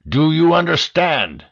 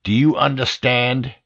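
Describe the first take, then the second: First: "you" pushed higher and louder; louder, higher furious repeat; angry repeat. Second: Said in the usual way. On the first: A narrator's reading. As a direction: demand it again, harder.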